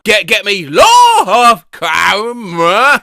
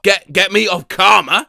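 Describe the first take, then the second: First: Plain 1. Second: Said in the usual way. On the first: Shown as a demonstration. AI voice prompt, repeated louder.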